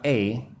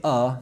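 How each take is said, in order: First: "a" said as ay; full ay sound for "a"; strong form of A. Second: "a" said as uh; short uh for "a"; weak form of A. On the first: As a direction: say "a" like the letter name. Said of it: "not a". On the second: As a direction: say "a" as a schwa, not ay. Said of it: "I'm going to say a, not a". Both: Shown as a demonstration.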